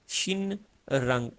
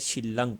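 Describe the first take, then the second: First: The middle sounds as n followed by r. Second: The middle sounds as a double l. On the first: The speaker calls it wrong. "ये शिन रंग नहीं बोला जाएगा" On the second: The speaker calls it right. "ये बोला जाएगा शिलंग"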